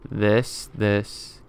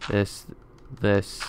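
The two takes are said the same way.

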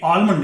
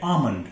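First: आलमंड with the l sounded; wrong pronunciation. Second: आमंड as AA-mund; silent l. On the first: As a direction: say आलमंड as AAL-mund. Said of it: "ये आलमंड नहीं है". (गलत उच्चारण, ल बोलकर आलमंड) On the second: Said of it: "एल silent होगा". (सही उच्चारण, बिना ल के आमंड) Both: Shown as a demonstration.

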